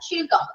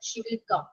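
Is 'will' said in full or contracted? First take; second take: contracted; full. First: The word 'will' is contracted to 'she'll'. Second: The word 'will' is said in full. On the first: The speaker calls it right. "അങ്ങനെയാണ് എപ്പോഴും നമ്മൾ സംസാരിക്കേണ്ടത്" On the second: The speaker calls it wrong. "എന്ന് പറയണ്ട"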